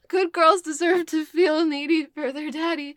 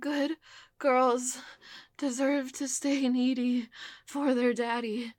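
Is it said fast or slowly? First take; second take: fast; slowly. First: It is said at a faster pace. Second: It is said at a slower pace.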